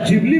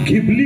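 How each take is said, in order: First: The word begins with a j sound. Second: The word begins with a breathy gh sound. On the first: "या ट्रेंडचे तीन उच्चार" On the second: "या ट्रेंडचे तीन उच्चार"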